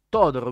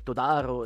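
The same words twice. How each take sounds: First: The stress falls on the first syllable. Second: The stress falls on a later syllable. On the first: The speaker calls it right. "devi mettere l'accento sulla O, la prima" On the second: The speaker calls it wrong. "che tu dicevi sempre Todaro"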